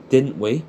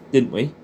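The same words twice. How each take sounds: The two takes are said the same way.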